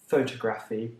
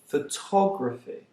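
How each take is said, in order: First: The stress is on the first syllable. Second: The stress is not on the first syllable. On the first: The speaker calls it wrong. "deriving the stress from the word photo. That's wrong" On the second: The speaker calls it right. "they are pronounced"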